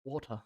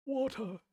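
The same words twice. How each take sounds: First: Said in the usual way. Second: Water. jumped way up high, the r dropped; playful high-pitched Water. with no r; high test take. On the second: Shown as a demonstration. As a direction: try the word up in a squeaky high voice. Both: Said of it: "now I forgot how the fuck I say it".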